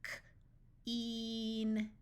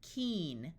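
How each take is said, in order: First: K alone, a pause, then a drawn-out "een"; sounded out. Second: Said in the usual way. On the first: Shown as a demonstration. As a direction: break "K-een" into its sounds slowly. Phonics teacher sounds out, then blends.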